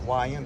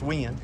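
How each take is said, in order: First: The name is said with two syllables. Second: The name is said with one syllable. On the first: The speaker calls it wrong. "Some people pronounce it Y N" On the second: The speaker calls it right. "it's actually supposed to be pronounced Win"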